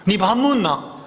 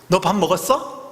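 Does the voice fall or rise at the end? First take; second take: fall; rise. First: Gyeongsang dialect, the pitch falls at the end. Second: Standard Seoul speech, the pitch rises at the end. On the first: "경상도 말은요? ... 내려가요" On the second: "끝이 어때요? 올라갑니다"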